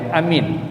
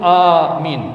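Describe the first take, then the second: First: Both vowels are said short. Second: The first vowel is long, the second short. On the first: It means peace or safety. "sebut pendek je" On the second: It means asking for protection and safety. "kita panjangkan A saja, alif saja, tapi kita pendekkan min"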